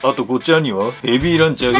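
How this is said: It is said in a put-on heavy voice.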